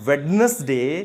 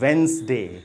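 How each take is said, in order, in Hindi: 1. यह शब्द तीन पूरे सिलेबल में बोला जाता है। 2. यह शब्द दो छोटे सिलेबल में बोला जाता है। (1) "so it is not वेडनेसडे" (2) "word बनता है वो बनता है वेंस, इट इज वेंसडे"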